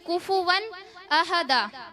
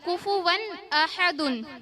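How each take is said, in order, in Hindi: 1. आखिरी शब्द 'a' की आवाज़ पर खत्म होता है। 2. आखिरी शब्द 'un' की आवाज़ पर खत्म होता है। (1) "अगर जबर लगा के पढ़ देंगे" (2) "दाल के ऊपर दो पेश था"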